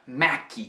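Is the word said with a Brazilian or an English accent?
Brazilian. It is said with a Brazilian Portuguese accent. "que brasileiro pronuncia Mac"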